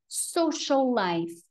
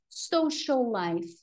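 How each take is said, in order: No difference in how they are said.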